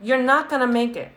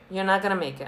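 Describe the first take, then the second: First: First take pitched higher, stressing "not"; 「not」を高く強調して言い切る; emphatic warning. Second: Said in the usual way. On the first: Real, not acted.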